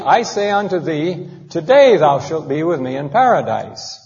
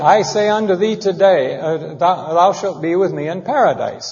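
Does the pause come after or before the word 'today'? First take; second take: before; after. First: The pause comes right before the word 'today'. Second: The pause comes right after the word 'today'. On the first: Paradise will be reached that same day. "It should be" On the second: The statement is made today; paradise comes later. "is how I read it"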